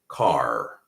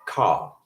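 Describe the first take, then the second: First: The final R sound is pronounced. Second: The final R sound is dropped. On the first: "I would say something like car" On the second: "They might say something like ka"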